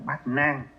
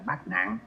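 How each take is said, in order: First: The second syllable has a level tone. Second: The second syllable has a heavy tone. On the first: It means eight difficulties. The speaker calls it right. "đúng ra nó gọi chữ là bát nan" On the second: It means eight calamities. The speaker calls it wrong. "chứ trong mình cứ quen gọi là bát nạn"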